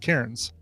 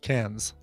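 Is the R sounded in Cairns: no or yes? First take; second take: yes; no. First: The R in the word is clearly sounded. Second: The R in the word is not sounded. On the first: "because we pronounce the R here, we pronounce Cairns" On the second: "in Australia, it's pronounced Cairns"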